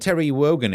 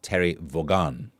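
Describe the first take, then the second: First: The surname starts with a W sound. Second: The surname starts with a V sound. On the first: The speaker calls it wrong. "I've been pronouncing it wrong" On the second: The speaker calls it right. "I believe it's pronounced Terry Vaughan"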